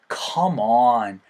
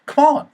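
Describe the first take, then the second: First: It is said in a low, drooping way. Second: It is said with lively, upbeat energy. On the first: Why are you acting like this? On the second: Let's go.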